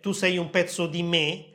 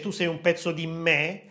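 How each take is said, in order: First: The final vowel in 'me' is closed. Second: The final vowel in 'me' is open. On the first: The singer is calling someone a part of herself. "non dice tu sei un pezzo di me" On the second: The singer is hinting at a cut-off vulgar insult. "ma dice tu sei un pezzo di me"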